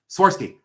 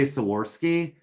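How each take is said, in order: First: "Swarovski" rushed out like a sneeze, high and loud; quick, sneezed-out word. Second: Said in the usual way. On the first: Retold or imitated. Friend shows how she says the brand, "Swarovski" sneezed out quick. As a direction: squash "Swarovski" into one quick high burst. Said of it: "It was like she sneezed". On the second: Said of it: "Why do you say it so quick".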